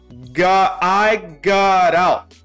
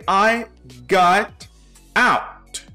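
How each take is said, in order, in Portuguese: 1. As palavras são ligadas entre si de forma suave. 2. As palavras são pronunciadas separadamente e com cuidado. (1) "ela pronuncia I got out" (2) "que não é pronunciado assim"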